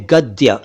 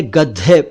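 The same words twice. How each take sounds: First: गद्य as "gad-dya", short final a; unaspirated d-y in गद्य; careful गद्य with no puff; correct pronunciation. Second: गद्य as "gaddhe", ending in e; wrong गद्य with dhe for dya; common mispronunciation. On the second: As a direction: aspirate the d and close गद्य on e. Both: Shown as a demonstration. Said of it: "सही उच्चारण है".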